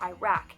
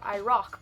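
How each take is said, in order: First: It uses an American pronunciation of the word. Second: It uses a non-American pronunciation of the word. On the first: This is how it was taught in America. "in America, I was always taught Iraq" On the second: This is how most people elsewhere say it. "everyone's like Iraq"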